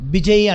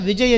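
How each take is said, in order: First: The name starts with a b sound. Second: The name starts with a v sound. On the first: This is how people from Bihar say it. "బిజయ్ అంటారు" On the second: This is the standard form. "విజయ్ అని చెప్పరు"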